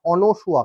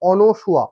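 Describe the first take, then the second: No difference in how they are said.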